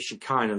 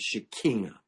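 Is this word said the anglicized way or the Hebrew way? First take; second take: anglicized; Hebrew. First: The word is said the anglicized way. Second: The word is said the Hebrew way. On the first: "we say Shekinah" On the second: "the proper Hebrew pronunciation is Shekinah"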